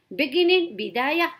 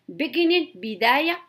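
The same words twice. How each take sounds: The two takes are said the same way.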